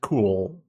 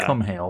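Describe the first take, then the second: First: The name is said as one syllable. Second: The name is said as two syllables. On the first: The speaker calls it right. "it's just like cool" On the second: The speaker calls it wrong. "That's not how you pronounce it"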